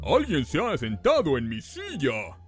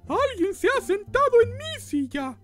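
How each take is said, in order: First: It is said in Papa Bear's big voice. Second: It is said in Mama Bear's medium voice.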